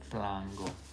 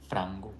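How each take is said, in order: First: The F is followed by an L sound. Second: The F is followed by an R sound. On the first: "They have to say flango"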